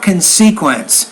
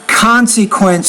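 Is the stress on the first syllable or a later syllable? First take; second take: later syllable; first syllable. First: The stress is on a later syllable. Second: The stress is on the first syllable. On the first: The speaker calls it wrong. "not consequence" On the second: The speaker calls it right. "put the accent under con"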